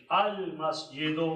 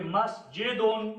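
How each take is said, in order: First: "अल मस्जिदु" ending on open -du; single pesh. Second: "मस्जिदुन" ending in -dun; double pesh. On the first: Teacher showing effect of al, "अल मस्जिदु" without tanween. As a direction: drop the final n in "अल मस्जिदु". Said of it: "आल आ जाए तो". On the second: Teacher showing double pesh, "मस्जिदुन" with a final n. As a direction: sound tanween at the end of "मस्जिदुन". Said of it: "दाल पर दो पेश". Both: Shown as a demonstration.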